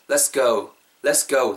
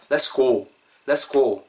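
First: "let's go" with "go" gliding to "gou"; natural gliding pronunciation. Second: "Let's go" with "go" as a pure "고"; flat Korean-style vowel. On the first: Teacher showing the one to use, "let's go" with gliding "gou". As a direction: say "let's go" ending in an "어우" diphthong. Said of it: "그 다음에 우리가 할 거는". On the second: Teacher showing the difference, "Let's go" with over-literal "고". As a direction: say "Let's go" as "레스고", no glide on the o. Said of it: "차에 한번 봐보세요". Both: Shown as a demonstration.

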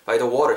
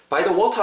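First: American "water" with a flapped t and r ending; American accent. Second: Higher British "water" with a crisp t, no final r; British accent. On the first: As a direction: say "by the water" the American way, "wah-der". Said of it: "미국식 액센트를 구사하시거나". (미국식 억양으로 "워러") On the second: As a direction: say "By the water" British-style, "waw-tah". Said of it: "브리티시 액센트로 하시려면은". (영국식 억양으로 "워타") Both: Shown as a demonstration.

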